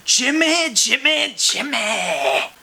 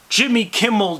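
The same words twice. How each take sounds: First: High sing-song call of Jimmy, Jimmy. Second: Said in the usual way. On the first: Acted. Calling out Jimmy's name.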